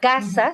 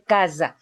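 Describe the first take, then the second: First: It is said with the modern Spanish consonant. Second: It is said with the older Judeo-Spanish consonant.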